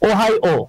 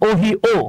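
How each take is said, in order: First: The middle syllable sounds like 'high'. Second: The middle syllable sounds like 'hee'. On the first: The speaker calls it right. "এটা হচ্ছে ওহাই ও" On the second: The speaker calls it wrong. "আমি বলেছিলাম ওহি ও। হ্যাঁ, আমি এটা mistake করে ফেলছিলাম"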